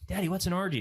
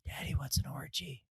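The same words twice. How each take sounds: First: Imitating a kid asking out loud; higher-pitched little-boy question, fully voiced; louder child's question. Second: Whispered imitation of a curious kid; soft, voiceless whisper of an asking child; child's whisper. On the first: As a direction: ask it aloud like an oblivious six-year-old. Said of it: "He says it louder". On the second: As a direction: whisper it into dad's ear like a little boy. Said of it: "whispers into me".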